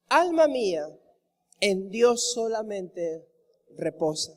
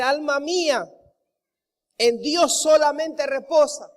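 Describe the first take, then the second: First: Hushed meditative recital of a psalm; reverent reading. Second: Louder, firm preaching of the verse; strong preacher's declaration, leaning on solamente; emphatic exhortation. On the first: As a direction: let the verse rest gently, slowly. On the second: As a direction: proclaim it to your own soul with force. David exhorting his own soul. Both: Acted.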